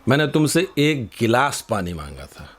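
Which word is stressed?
गिलास. The word गिलास carries the strongest stress. I asked for a glass, not a whole pot. "तुम ये पूरा मटका क्यों ले आए?"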